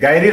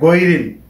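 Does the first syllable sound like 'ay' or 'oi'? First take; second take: ay; oi. First: The first syllable has an open 'ay' sound. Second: The first syllable has a rounder 'oi' sound. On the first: The speaker calls it wrong. "গায়রিল হবে না" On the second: The speaker calls it right. "হবে গৈরিল"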